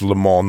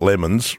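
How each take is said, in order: First: The name ends without an S sound. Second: The name ends with an S sound. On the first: The speaker calls it right. "notice I said it without the S" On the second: The speaker calls it wrong. "not lemons"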